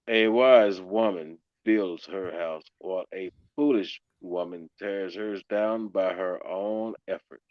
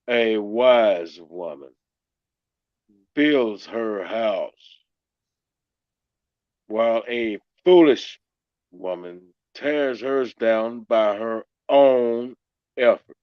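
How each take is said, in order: First: It is read plainly, without extra emphasis. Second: It is read with strong, forceful emphasis.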